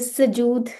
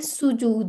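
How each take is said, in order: First: The first vowel is an 'a' sound. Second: The first vowel is a 'u' sound. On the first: The speaker calls it wrong. "सजूद नहीं है" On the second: The speaker calls it right. "सुजूद है"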